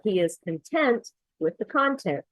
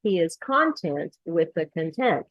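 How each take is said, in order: First: First content as conTENT, second content as CONtent; correct content stress. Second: First content as CONtent, second content as conTENT; swapped content stress. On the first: Teacher reading the example, content stressed conTENT then CONtent. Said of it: "where the stress is". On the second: Teacher showing the difference, content stressed CONtent then conTENT. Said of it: "how it makes a big difference". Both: Shown as a demonstration.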